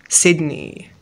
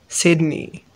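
No difference in how they are said.

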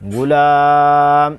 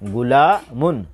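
First: The word ends abruptly on a bare 'm'. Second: The word ends with a pronounced 'un' sound. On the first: The reader stops on this word. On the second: The reading continues without stopping.

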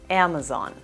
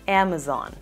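No difference in how they are said.

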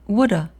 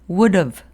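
First: The h and v drop, leaving only an a. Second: The h drops but the v is kept. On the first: "v도 탈락하고 a 발음만 남아요" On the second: "have의 h는 일단 탈락됩니다"

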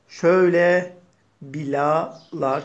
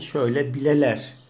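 First: The vowels after the l sound like 'a'. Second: The vowels after the l sound like 'e'. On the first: The speaker calls it wrong. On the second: The speaker calls it right.

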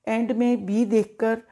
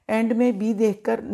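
No difference in how they are said.

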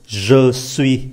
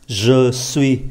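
No difference in how they are said.

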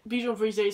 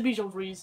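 First: It is said in a posh, French-like way. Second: It is said in a plain, everyday way.

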